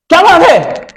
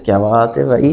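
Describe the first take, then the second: First: It sounds like an angry scolding. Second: It sounds pleased and admiring.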